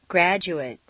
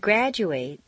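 First: The final syllable has a reduced vowel. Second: The final syllable has a full 'ate' vowel. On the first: It is used as a noun or adjective. "completely reduced" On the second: It is used as a verb. "it's a full A sound"

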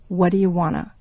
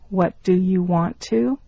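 First: The words are run together and reduced. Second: Each word is said fully and separately.

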